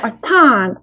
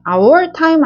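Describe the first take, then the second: First: The word 'our' is short and weak. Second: The word 'our' is full and stressed. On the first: The speaker calls it right. "강세가 매우 작고요" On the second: The speaker calls it wrong. "아니고"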